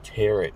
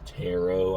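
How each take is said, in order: First: It is sounded out letter by letter, like 'tear it'. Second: It is said the usual way, like 'tarot'. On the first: The speaker calls it wrong. "I call it tear it because, like, I always say that shit in my head and, like, I just sound it out" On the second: The speaker calls it right. "but it's actually pronounced like tarot"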